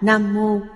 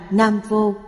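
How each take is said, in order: First: The second word starts with an m sound. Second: The second word starts with a v sound. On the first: This is the ancient reading of the term. The speaker calls it right. "thời cổ, hai chữ này được đọc là Nam Mô" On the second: This is the present-day reading of the term. The speaker calls it wrong. "Hiện thời, đọc thành Nam Vô"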